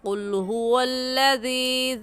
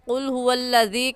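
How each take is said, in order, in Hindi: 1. आख़िरी स्वर लंबा खींचकर पढ़ा जाता है। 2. आख़िरी स्वर छोटा पढ़ा जाता है, खींचा नहीं जाता। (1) "सही ऐसे है, ऐसे पढ़ेंगे" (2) "ज़ाल या से जी को ना खींचना गलत हो जाएगा"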